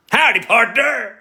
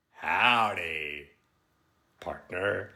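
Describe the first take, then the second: First: High, loud mock American cowboy; American accent. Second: Soft, drawn-out mock American cowboy; American accent. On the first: Streamer answering critics of the accent, loud mock American. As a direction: defiantly holler a hammed-up American howdy. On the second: Streamer retrying for critics, soft slow mock American. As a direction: ease out a quieter American howdy, word by word. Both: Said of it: "say my accent's not good now".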